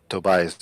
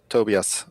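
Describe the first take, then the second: First: The name has an English pronunciation. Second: The name has a non-English pronunciation.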